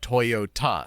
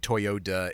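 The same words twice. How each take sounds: First: It is said with a Japanese-style accent. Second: It is said with an American English accent. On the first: "but it's you know" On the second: "American English we say Toyota anyway"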